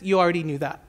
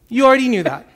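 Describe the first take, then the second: First: It is said in a plain, neutral way. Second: It is said dramatically, with a sarcastic tone.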